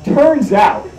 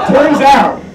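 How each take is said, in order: First: Said in the usual way. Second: "Turns out" punched higher and louder; emphatic repeat. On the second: Shown as a demonstration. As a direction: hit "Turns out" hard for the punchline.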